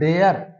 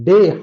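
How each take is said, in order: First: The word ends with a 'yer' sound. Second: The word ends in a plain 'e' vowel. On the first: The speaker calls it wrong. "वहां word था डेयर" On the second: The speaker calls it right. "British accent ... right pronunciation होती है डे"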